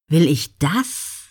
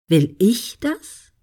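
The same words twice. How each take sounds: First: The stress falls on the word das. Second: The stress falls on the word ich. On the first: It asks whether exactly this particular goal is wanted. "Ist es genau das?" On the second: It asks whether the goal is one's own, not others' expectations. "Ist es wirklich Ihr Ziel oder erfüllen Sie Erwartungen?"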